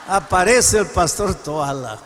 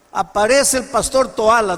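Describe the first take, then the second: First: "Aparece el pastor Toala" drawn out slowly, each word spaced; slow it down for suspense; slow dramatic repeat. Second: Said in the usual way. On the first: Shown as a demonstration. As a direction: unveil the arrival slowly.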